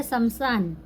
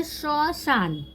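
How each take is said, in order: First: "शमशान" as sam-saan, m sounded; Hindi reading. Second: "शशान" as sho-shaan, no m; silent m. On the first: Teacher gives the Hindi word, "शमशान" with audible m. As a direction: put an audible m inside "शमशान". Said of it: "शशान का मतलब होता है". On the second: Teacher shows learners Bengali reading, "शशान" said sho-shaan. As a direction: round the first vowel of "शशान", skip the m. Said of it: "म यहाँ silence रहेगा". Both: Shown as a demonstration.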